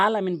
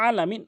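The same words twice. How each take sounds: First: আলামিন starting on a plain open a; mistaken plain vowel. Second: আলামিন opening with a squeezed mid-throat ain; correct pressed ain. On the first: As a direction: say আলামিন without the throat squeeze. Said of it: "আলামিন বলে নামাজ হবে না". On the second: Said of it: "হলকের মাঝখান থেকে চাপ দিয়ে". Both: Shown as a demonstration.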